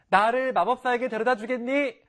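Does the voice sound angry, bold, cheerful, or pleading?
cheerful. It is said in a bright, lively voice.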